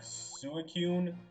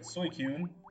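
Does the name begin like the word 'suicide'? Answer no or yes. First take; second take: yes; no. First: The name begins like the word suicide. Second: The name does not begin like suicide.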